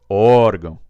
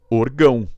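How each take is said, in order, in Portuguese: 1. A tônica está na primeira sílaba. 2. A tônica está na última sílaba. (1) "eu tenho que tirar aqui do orgão e jogar aqui no O" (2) "Se eu não acentuasse o chamado do jeito que ela veio, eu falo orgão"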